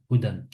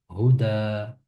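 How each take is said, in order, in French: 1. Le mot se termine par le son n. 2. Le mot se termine par une voyelle, sans n. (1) "Si je m'arrête pas dans ma récitation, je dirais Houdan" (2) "comme je m'arrête maintenant, je dis Houda"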